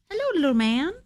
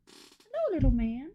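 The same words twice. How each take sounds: First: Higher cooing pet voice, rising on hello. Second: Much higher and softer, hello squeaked way up. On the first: To her cat, a first cooing baby-talk hello. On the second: To her cat, an even higher squeaky baby-talk hello. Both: Real, not acted.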